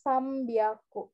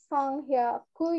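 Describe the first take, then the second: First: The second part starts with a b sound. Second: The second part starts with an h sound. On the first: The speaker calls it right. "jadinya sambyaku" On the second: The speaker calls it wrong. "harusnya san sanghyaku ya. Nah, tapi nggak bisa"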